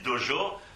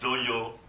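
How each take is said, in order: First: The middle consonant is a soft 'j' sound. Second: The middle consonant is a 'y' sound. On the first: This is how French speakers say it. "nous on dit dojo" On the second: This is how Spanish speakers say it. "ils le prononcent yo. Alors ils disent doyo"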